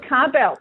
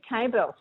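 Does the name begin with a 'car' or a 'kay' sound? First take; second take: car; kay. First: The first syllable sounds like 'car'. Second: The first syllable sounds like 'kay'. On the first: The speaker calls it right. "I always said Carbell" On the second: The speaker calls it wrong. "but then you said Cable"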